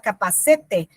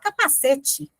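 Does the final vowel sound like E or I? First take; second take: E; I. First: The final vowel sounds like E. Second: The final vowel sounds like I. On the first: The speaker calls it wrong. "mas a gente não fala capacete" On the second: The speaker calls it right. "a letra E final, ela tem som de I"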